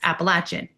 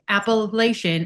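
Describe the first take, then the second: First: The word has the southern pronunciation. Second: The word has the northern pronunciation. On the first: The speaker calls it right. "it's Appalachian" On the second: The speaker calls it wrong. "would say Appalachian until I was in that area and they scolded me"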